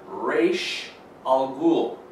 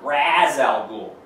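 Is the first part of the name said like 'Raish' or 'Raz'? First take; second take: Raish; Raz. First: The first part sounds like 'Raish'. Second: The first part sounds like 'Raz'. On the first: This is how the character's creator says it. The speaker calls it right. "The creator of the character calls the character Ra's al Ghul" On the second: This is how the film is expected to say it. The speaker calls it wrong. "Not Ra's al Ghul"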